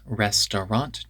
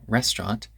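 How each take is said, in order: First: All syllables are pronounced fully. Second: A syllable is dropped, shortening the word. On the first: "we reduce restaurant" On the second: "to restaurant"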